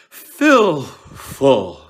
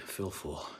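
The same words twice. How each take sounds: First: "Fill full" blasted loud and high as a comic punchline; jokey line reading. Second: Serious. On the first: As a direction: play "Fill full" for laughs, big and hammy. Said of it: "I've seen an actor say ... try to make a joke". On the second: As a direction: say "Fill full" quietly, keeping it grave. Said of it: "not to lean into the comedy". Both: Shown as a demonstration.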